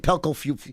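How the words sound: The voice falls at the end. It is a plain statement. "Pelco Fuel is a declaration"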